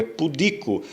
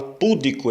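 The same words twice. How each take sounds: First: "pudico" stressed on DI; "pudico" with a strong middle syllable; corrected stress. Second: "púdico" stressed on the first syllable; "púdico" with strong PÚ, weak middle; common mispronunciation. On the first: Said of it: "é pudico". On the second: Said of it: "Tem gente que fala púdico". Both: Shown as a demonstration.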